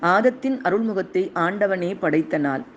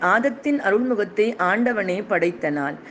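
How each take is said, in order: Both takes have the same delivery.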